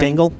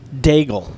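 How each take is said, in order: First: The name is said with an added N sound. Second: The name is said without any N sound. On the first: The speaker calls it wrong. "I put an N in the end of it" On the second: The speaker calls it right. "There's no N in it"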